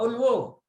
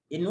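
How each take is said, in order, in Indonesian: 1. Kata itu diawali dengan vokal u. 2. Kata itu diawali dengan vokal i. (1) "Nggak boleh u" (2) "Yang benar adalah tadi yang antum pertama in"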